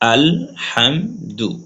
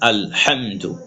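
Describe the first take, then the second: First: It is said slowly, syllable by syllable. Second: It is said quickly, syllables run together. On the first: "প্রথমে ভেঙে ভেঙে পড়বেন" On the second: "তারপর আপনি তাড়াতাড়ি পড়বেন"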